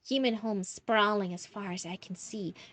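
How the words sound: It is said in a put-on character voice. "back to the Messy Mervin voice"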